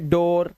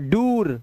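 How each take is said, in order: First: The vowel is an 'oh' sound. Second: The vowel is a long 'oo' sound. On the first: The speaker calls it right. "ये डोर" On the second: The speaker calls it wrong. "नहीं ये दोनों ही नहीं है"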